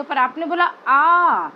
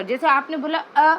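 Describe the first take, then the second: First: आ drawn out long, a full long vowel. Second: अ said quick and short. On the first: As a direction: stretch the आ so it takes time. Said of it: "आ बोलते समय थोड़ा time ज़्यादा लग रहा है". (लंबा खींचा हुआ आ) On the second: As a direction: snap out a brief अ. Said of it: "अ तो आपने फटाफट से बोल दिया". (छोटा, जल्दी बोला अ) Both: Shown as a demonstration.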